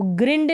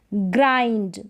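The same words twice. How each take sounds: First: ग्रिंड with a short "ih" vowel; ग्रिंड, mistakenly shortening the i; wrong pronunciation. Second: ग्राइंड with a long "eye" vowel; ग्राइंड drawn on a long i, falling at the end; correct pronunciation. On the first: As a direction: say ग्रिंड to rhyme with "tinned". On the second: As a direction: say ग्राइंड as "grynd", rhyming with find. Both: Shown as a demonstration. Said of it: "इसको ग्रिंड नहीं पढ़ेंगे".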